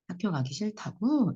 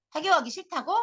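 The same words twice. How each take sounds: First: Slow, gentle repeat question; unhurried, accepting echo; empathetic echo. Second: High, mocking repeat question; needling echo, pitched up; sarcastic echo. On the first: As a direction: echo it back slowly, wanting to understand. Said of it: "라는 마음으로 앵무새처럼 따라해줘". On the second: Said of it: "비꼰 거지". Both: Shown as a demonstration.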